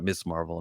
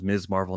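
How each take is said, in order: First: The first word ends with a hissing s sound. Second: The first word ends with a buzzing z sound. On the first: The speaker calls it wrong. "if you pronounce it Miss, you're saying it wrong" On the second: The speaker calls it right. "Miz Marvel is how you pronounce the word"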